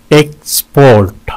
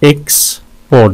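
First: "एक्सपोर्ट" in two beats, second held; syllable breakdown. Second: "एक्सपोर्ट" with a wide gap in the middle; syllable breakdown. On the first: ("एक्सपोर्ट" दो हिस्सों में) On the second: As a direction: pause after the first syllable of "एक्सपोर्ट". ("एक्सपोर्ट" बीच में रुककर) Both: Shown as a demonstration. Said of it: "दो syllables हैं इसके".

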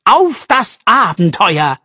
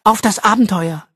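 First: Slow, louder and higher, bursting with excitement; slow excited toast, louder and higher; enthusiastic toast. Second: Smiling repeat. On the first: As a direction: raise a toast full of enthusiasm. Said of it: "rief er". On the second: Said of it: "wiederholte Arabella und lächelte". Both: Acted.

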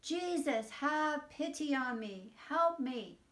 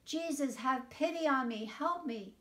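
First: Louder, higher, pleading cry of "have pity on me"; shouting louder. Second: A raised, higher-pitched plea for help; calling out. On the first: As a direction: cry out over the people who hush him. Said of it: "But he shouted even louder". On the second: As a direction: call out to Jesus as he passes by. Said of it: "he called out". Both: A narrator's reading.

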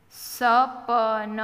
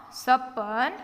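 First: Slow, each letter given its own vowel; sounded out. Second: Said in the usual way. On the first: Shown as a demonstration. Teacher spelling a word for beginning readers, sounded out. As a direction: stretch સપન out as sa-pa-na.

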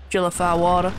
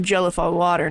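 First: American accent slipping southern, "water" losing its final r; accent slip. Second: Said in the usual way. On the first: Real, not acted. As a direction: let the accent drift southern on "Jellify water". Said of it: "Oh god, the accent changed". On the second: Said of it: "the accent changed".

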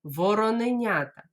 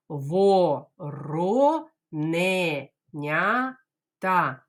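First: Вороненята said briskly in one go; fast Вороненята for the class; quickly. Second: Вороненята very slow, syllables separated; teacher drills Вороненята slowly. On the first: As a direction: run it together fast. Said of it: "спробуємо швидко сказати". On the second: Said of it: "Давайте по складах". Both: Shown as a demonstration.

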